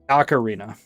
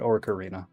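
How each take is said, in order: First: The first syllable has no R sound. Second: The first syllable has an R sound. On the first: The speaker calls it right. "Ocarina is what it's actually called" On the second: The speaker calls it wrong. "There's no R in there. It's not Orcarina"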